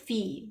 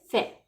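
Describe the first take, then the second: First: The vowel sounds like the English 'ee'. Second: The vowel sounds like a pure 'ay'. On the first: The speaker calls it wrong. "we cannot pronounce it as fee" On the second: The speaker calls it right. "We pronounce it as fe"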